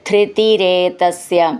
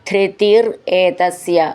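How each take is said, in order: First: The two words are run together as one. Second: The two words are said separately.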